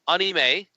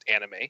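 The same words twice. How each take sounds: First: It is said closer to the Japanese pronunciation. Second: It is said with an Americanized pronunciation. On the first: The speaker calls it right. "is a closer to correct pronunciation" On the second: The speaker calls it wrong. "Americans have kind of bastardized it into just anime"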